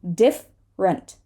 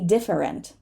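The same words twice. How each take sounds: First: One syllable of the word is dropped. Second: Every syllable of the word is pronounced. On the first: The speaker calls it right. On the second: The speaker calls it wrong.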